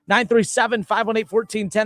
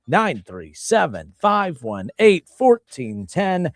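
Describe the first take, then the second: First: The number is read at a quicker pace. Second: The number is read at a slower pace.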